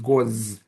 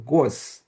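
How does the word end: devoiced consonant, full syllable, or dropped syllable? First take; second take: dropped syllable; devoiced consonant. First: The second syllable is dropped, leaving one. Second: One syllable ending in a voiceless consonant. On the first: "lose the second syllable" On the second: "devoice the last consonant"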